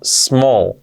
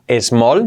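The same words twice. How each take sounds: First: The word begins directly with the s sound. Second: An extra e vowel comes before the s. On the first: The speaker calls it right. "no, small" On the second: The speaker calls it wrong. "que no sea small ... nadie pone una E antes de decir small"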